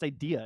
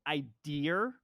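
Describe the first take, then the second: First: The word ends in a vowel, no R sound. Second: The word ends with an added R sound. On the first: This is how the speaker says it. The speaker calls it right. "there's no R" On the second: This is how the mother says it. The speaker calls it wrong. "my mom said the word "idear,""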